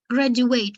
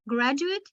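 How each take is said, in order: First: "Graduate" with a full final "ate", drawn out; verb pronunciation. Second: "graduate" with a short weak final "it"; noun pronunciation. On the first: Teacher shows the verb, "Graduate" ending in full "ate". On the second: Teacher shows noun and adjective, "graduate" ending in short "it". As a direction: say "graduate" as GRAD-u-it. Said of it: "noun and adjective". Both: Shown as a demonstration.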